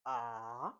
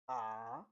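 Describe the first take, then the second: Both takes have the same delivery.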